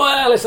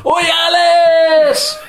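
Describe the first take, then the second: First: High loud shouted Oi, Alice; crowd jeer. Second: Long high sing-song shout of Oi, Alice; crowd jeer. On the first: Fans turning round to jeer him, loud shout. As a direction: bark it like the whole stand at once. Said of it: "they all turn round and they go". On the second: Fans in the old stand jeering the reporter, sung shout. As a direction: chant it like a terrace crowd, slow and loud. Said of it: "and everybody goes". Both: Retold or imitated.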